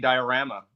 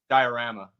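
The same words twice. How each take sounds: First: The stress is on the rama part. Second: The stress is not on the rama part.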